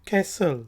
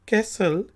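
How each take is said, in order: The two takes are said the same way.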